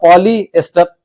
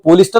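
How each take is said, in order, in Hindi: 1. इस शब्द में चार अक्षर हैं, 'polyester'। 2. यह शब्द तीन अक्षरों में छोटा हो गया है, 'polister'। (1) "बल्कि होता पॉलीएस्टर" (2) "वो पोलिस्टर नहीं होता"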